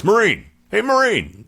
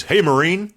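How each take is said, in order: First: Very high, loud repeated hail; insistent calling. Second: High, loud hail down a hallway; calling out. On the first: Gunny calling the ignoring civilian again, louder insistent hail. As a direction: call louder, he's ignoring you. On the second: Gunny hailing a stranger in the hallway, high loud call. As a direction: call to him from a doorway. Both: Retold or imitated.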